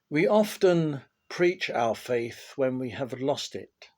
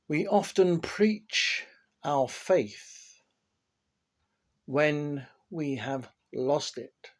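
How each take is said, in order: First: It is read at a normal pace. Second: It is read slowly and deliberately.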